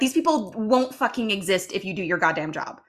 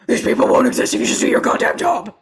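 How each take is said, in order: First: It is said in his normal voice. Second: It is said in a Batman impression voice.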